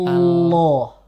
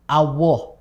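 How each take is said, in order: First: The middle consonant is a pure l. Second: The middle consonant is a pure w. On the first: The speaker calls it right. "dibaca dengan murni lam" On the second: The speaker calls it wrong. "menjadi wawu murni"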